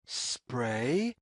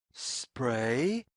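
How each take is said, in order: Both takes have the same delivery.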